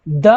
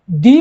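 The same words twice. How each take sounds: First: "द" said as a short "duh", schwa vowel; short the sound. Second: "दी" said as "thee" with a long ee; long thee sound. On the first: Teacher to students, first says "द" short like "duh". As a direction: clip "द" to a quick "duh". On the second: Teacher correcting herself, says "दी" with long ee. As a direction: stretch "दी" into a clear "dee". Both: Shown as a demonstration. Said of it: "हाँ, दी pronounce करना".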